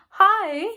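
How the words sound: It is said with lively enthusiasm.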